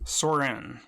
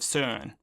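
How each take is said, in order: First: The name is said with American English sounds. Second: The name is said with Danish sounds. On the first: "American pronunciation" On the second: "I believe the correct pronunciation is uh, somewhere along the lines of Søren"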